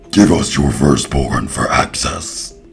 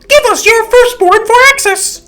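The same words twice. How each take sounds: First: It is said in a deep demon voice. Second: It is said in a normal voice.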